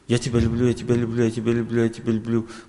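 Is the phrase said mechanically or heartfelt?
mechanically. It is rattled off flatly, without feeling. The words are repeated out of obligation. The speaker calls it wrong. "что ты тараторишь?"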